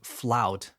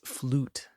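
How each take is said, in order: First: The vowel sounds like 'ow'. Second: The vowel sounds like 'oo'. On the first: The speaker calls it wrong. "I hear people saying flout because in Spanish we say flauta" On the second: The speaker calls it right. "but it's flute"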